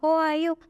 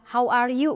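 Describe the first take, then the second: First: It is pronounced vaguely and loosely. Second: It is pronounced crisply and firmly. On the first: This is how the Thai teacher said it. The speaker calls it wrong. "Kalau itu tuh kayak ngambang gitu" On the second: This is how Indonesian speakers say it. The speaker calls it right. "Kalau kita kan ya how are you masih bisa"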